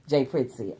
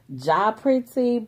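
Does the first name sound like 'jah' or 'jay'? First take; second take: jay; jah. First: The first name rhymes with 'day'. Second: The first name has an open 'ah' vowel. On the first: The speaker calls it right. "I pronounce it Jay Pritzy" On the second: The speaker calls it wrong. "some people pronounce it as Ja Pritzy, but it's not"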